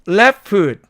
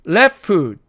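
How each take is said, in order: No difference in how they are said.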